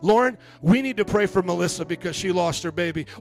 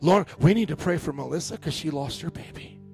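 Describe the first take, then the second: First: It is said in an eager, gossipy tone. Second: It is said in a sincere, concerned tone. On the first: The speaker wants to spread the news. The speaker calls it wrong. "One could be like trying to spread gossip" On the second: The speaker genuinely asks for prayer. The speaker calls it right. "Another one is saying, could you pray for this?"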